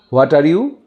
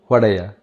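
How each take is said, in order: First: Each word is said separately and in full. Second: The words blend into one reduced word.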